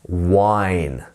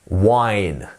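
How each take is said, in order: Both takes have the same delivery.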